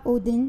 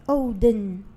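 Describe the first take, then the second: First: The name is said the usual, non-Icelandic way. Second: The name is said with Icelandic pronunciation. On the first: The speaker calls it wrong. "c'est pas Odin" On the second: The speaker calls it right. "tu dois avoir la prononciation islandaise"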